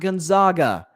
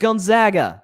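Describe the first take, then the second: First: The middle syllable rhymes with 'bog'. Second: The middle syllable rhymes with 'bag'. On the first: The speaker calls it wrong. "not Gonzaga. ... not the Zogs" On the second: The speaker calls it right. "It is Gonzaga, ... They're called the Zags"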